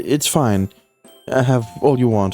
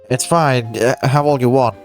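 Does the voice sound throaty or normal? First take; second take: throaty; normal. First: The voice is throaty, with the nose held. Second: The voice is normal, with the nose open.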